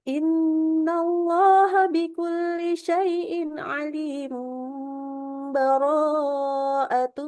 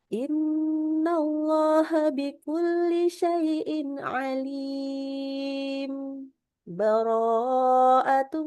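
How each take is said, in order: First: It runs straight on after alim without stopping. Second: It pauses briefly without a breath after alim. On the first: "Kalau saya mewasalkan juga boleh. Ini cara ketiga" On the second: "Ana baca yang disaktahkan"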